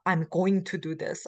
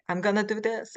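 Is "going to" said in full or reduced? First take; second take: full; reduced. First: "Going to" is said in full. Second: "Going to" is reduced to "gonna". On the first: This is the proper form, rarely used. "if we uh, properly pronounce it" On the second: This is the everyday form. "What do we say? We say"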